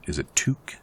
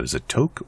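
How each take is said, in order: First: "toque" said with an oo, like "Luke"; oo pronunciation. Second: "toque" said with a long o, like "oak"; long-o pronunciation. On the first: Player trying the other way to say the hat word, oo-sound "toque". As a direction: say "toque" as "took" with a long oo, questioning. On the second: Player unsure how to say the French hat word, long-o "toque". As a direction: say "toque" to rhyme with "smoke". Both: Shown as a demonstration. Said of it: "how do you say that?".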